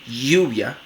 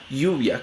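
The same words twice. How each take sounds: First: The first sound is a firm, frictional y. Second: The first sound is a soft, gliding y. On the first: "como una fricativa palatal sonora" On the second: "una aproximante palatal sonora"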